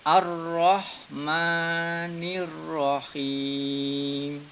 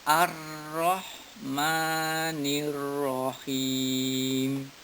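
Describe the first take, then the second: The two takes are said the same way.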